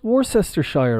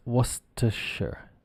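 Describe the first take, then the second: First: "Worcestershire" as WOR-sess-ter-SHIRE, high-pitched; mock wrong pronunciation. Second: "Worcestershire" as WUSS-tuh-shur; correct pronunciation. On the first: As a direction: confidently read every syllable of "Worcestershire" as written. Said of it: "No, absolutely not". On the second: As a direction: model "Worcestershire" shortened, ending in "shur". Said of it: "it becomes Worcestershire". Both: Shown as a demonstration.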